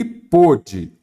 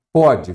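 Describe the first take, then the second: First: "pôde" with a closed O; closed vowel. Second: "Pode" with an open O; open vowel. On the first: Teacher contrasting past-tense verb, closed O in "pôde". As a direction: say "pôde" with a tight, closed O sound. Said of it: "o verbo no passado, acento diferencial". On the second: Teacher contrasting present-tense verb, open O in "Pode". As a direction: say "Pode" with a wide, open O sound. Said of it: "verbo no presente, sem acento". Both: Shown as a demonstration.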